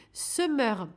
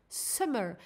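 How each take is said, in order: First: Said in the usual way. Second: English accent. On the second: Shown as a demonstration. Reading the coupon code to listeners in a self-mocking English accent. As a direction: give the promo code SUMMER a shaky English accent. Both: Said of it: "mon accent anglais pourri".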